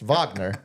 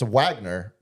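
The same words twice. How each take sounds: First: The name starts with a German V sound. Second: The name starts with an English W sound.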